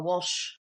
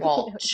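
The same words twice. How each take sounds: First: The name ends with a soft sh sound. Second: The name ends with a ch sound. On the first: This is how other people mispronounce it. The speaker calls it wrong. "if I don't say ch, then people go Walsh" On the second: This is the name's true pronunciation. The speaker calls it right. "no, no, Walsh"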